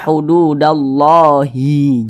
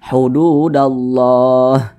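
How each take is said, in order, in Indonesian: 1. Kata ini diakhiri vokal i yang ditambahkan. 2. Kata ini diakhiri huruf h mati, tanpa harakat. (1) "Jangan dibaca hududallahi, jangan" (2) "kita baca hududallah"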